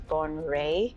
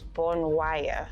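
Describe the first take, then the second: First: The second syllable sounds like 'ray'. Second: The second syllable sounds like 'wire'. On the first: It follows the local pronunciation. The speaker calls it right. "but apparently it's bone ray" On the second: It follows the written spelling. The speaker calls it wrong. "When you look at the spelling, it reads bone wire"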